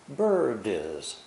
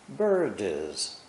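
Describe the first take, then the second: The two takes are said the same way.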